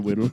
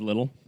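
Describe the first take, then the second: First: The word begins with a W sound. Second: The word begins with an L sound. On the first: "He would say them like W's" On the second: "instead of little"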